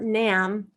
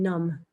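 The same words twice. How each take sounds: First: The vowel differs from the one in 'numb'. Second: The vowel sounds like the one in 'numb'. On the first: The speaker calls it wrong. "So it's not Nam or Nam" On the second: The speaker calls it right. "It's like more like N U M B in English"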